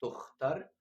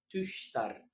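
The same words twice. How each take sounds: First: تختر as German Tochter, with a throaty kh; teacher contrasting تختر, hard kh; German ach-sound. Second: تشتر as German Töchter, with a light sh; teacher contrasting تشتر, light sh; German ich-sound. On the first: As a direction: say تختر with a rasping kh. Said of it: "تختر". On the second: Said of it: "حط الأوملاوت هتبقى تشتر". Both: Shown as a demonstration.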